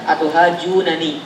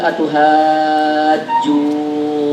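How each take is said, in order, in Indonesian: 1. Dua bunyi n terpisah dengan vokal pendek di antaranya. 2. Bunyi n menyatu menjadi satu bunyi panjang yang ditahan. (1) "Kalau kalau enggak diidghamkan harusnya dua harokat aja" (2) "karena idgham kabir"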